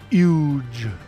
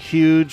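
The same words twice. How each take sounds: First: The word begins without any H sound. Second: The word begins with a clear H sound. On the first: "he would just say huge. No H, no H" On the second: "saying huge with the H"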